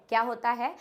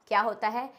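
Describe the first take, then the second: The two takes are said the same way.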